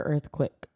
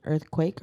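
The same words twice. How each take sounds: First: "earthquake" with the end said like "quick"; reduced-vowel pronunciation. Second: "Earthquake" with a long AY, like "quake"; full-vowel pronunciation. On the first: Asking friends the proper pronunciation, "earthquake" as "earth-quick". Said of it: "Did you say quick?". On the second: Asking friends the proper pronunciation, "Earthquake" with full "quake". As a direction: say "Earthquake" ending in a clear "quake". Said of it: "What's the proper pron-, pronunciation". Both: Shown as a demonstration.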